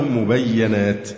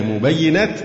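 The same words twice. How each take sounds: First: مبينات with an a after the doubled y, "mubayyanat"; fatha on ya. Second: مبينات with an i after the doubled y, "mubayyinat"; kasra on ya. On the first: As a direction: say مبينات as mu-bay-ya-nat. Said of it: "بفتح الياء". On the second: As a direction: say مبينات as mu-bay-yi-nat. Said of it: "وكسرها". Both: Shown as a demonstration.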